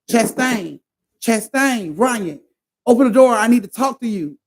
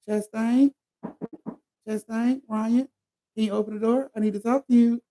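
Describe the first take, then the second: First: It is said in an aggressive tone. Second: It is said in a calm tone.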